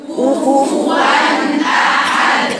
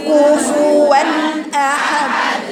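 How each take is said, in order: Both takes have the same delivery.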